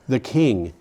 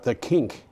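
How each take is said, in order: First: The word ends with a soft 'ng' sound. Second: The word ends with a hard 'k' sound.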